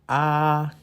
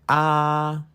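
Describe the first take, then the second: No difference in how they are said.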